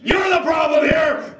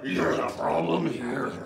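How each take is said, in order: First: High, drawn-out shouted accusation; slow angry shout. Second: Slow, soft, drawn-out blame; hushed accusation. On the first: Sibling repeating the blame, slow angry shout. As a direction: shout each word of blame slowly. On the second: Sibling repeating the blame, slow and hushed. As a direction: drop to a slow hush. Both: Acted.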